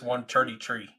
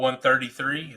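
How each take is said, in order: First: Three begins with a plain t sound. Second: Three begins with a th sound.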